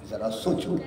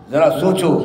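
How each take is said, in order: First: Hushed. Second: Louder. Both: Real, not acted. Repeated, hushed then loud.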